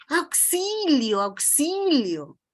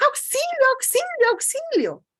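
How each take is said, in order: First: Said in the usual way. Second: Much higher, louder, urgent shouts of help; panicked cry for help. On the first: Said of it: "con mi voz puedo decir". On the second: Shown as a demonstration. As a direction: scream it like you're really in danger. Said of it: "también con esa misma voz puedo decir".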